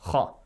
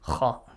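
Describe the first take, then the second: First: The letter is said heavy, with a deep, thick sound. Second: The same.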